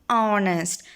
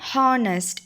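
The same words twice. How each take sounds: First: The word begins with a vowel sound. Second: The word begins with a consonant sound. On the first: The speaker calls it right. "It is honest. So O sound is there" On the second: The speaker calls it wrong. "We are not saying honest"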